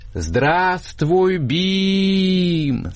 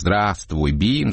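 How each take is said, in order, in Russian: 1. Сказано громко и утрированно, как в цирке. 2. Сказано спокойно, обычной громкостью.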